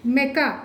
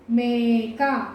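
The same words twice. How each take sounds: First: "మెక" with a quick short "మె"; no lengthening at all in "మెక"; short vowel. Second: "మేక" with a long held "మే"; drawn-out long vowel. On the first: Teacher showing what the misspelling gives, short "మె" in "మెక". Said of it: "దానికి దీనికి ఎంత తేడా ఉంది". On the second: Teacher contrasting goat with its misspelling, long "మే" in "మేక". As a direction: stretch the first vowel of "మేక". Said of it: "కొంచెం దీర్ఘం ఎక్కువ తీస్తేనే". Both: Shown as a demonstration.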